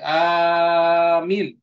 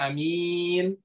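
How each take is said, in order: First: The first vowel is long, the second short. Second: The first vowel is short, the second long. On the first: It means a plea for protection. "panjang hamzahnya, mimnya pendek" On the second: It means honest. "a-nya pendek, mimnya panjang"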